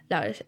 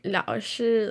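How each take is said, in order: First: Said in the usual way. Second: "Lao Shi" said deliberately, each syllable given its tone; careful tone marks. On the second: Shown as a demonstration. Student practising a newly learned word, careful tones on "Lao Shi". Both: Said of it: "tone marks".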